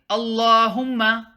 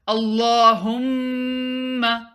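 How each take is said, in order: First: The m is short with no nasal hold. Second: The m is held nasally for two counts. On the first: The speaker calls it wrong. "Don't say" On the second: The speaker calls it right. "Do gunna"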